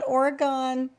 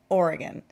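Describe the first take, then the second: First: It is pronounced a non-local way. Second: It is pronounced the local West Coast way. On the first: The speaker calls it wrong. "Not Oregon" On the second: The speaker calls it right. "those of us from the West Coast, including Oregon, call it Oregon"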